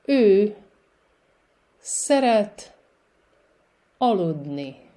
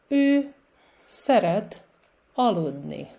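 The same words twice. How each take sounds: First: The sentence is spoken very slowly. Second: The sentence is spoken a bit faster. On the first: "I will say it very slowly" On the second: "with a little bit more speed"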